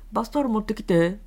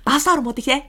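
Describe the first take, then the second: First: The voice is muffled, with the mouth barely open. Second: The voice is clear, with the mouth opened wider. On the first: The listener could not hear the request. The speaker calls it wrong. "5 ミリだとこもりますね。" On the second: The listener heard and understood the request. The speaker calls it right. "口の形を変えただけで"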